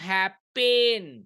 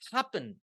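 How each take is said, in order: First: The second vowel is a full 'e' sound. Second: The second vowel is a neutral schwa sound. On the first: The speaker calls it wrong. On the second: The speaker calls it right.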